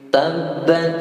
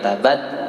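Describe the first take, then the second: First: The b sound is held and doubled. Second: The b sound is short and single. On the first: The speaker calls it right. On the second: The speaker calls it wrong.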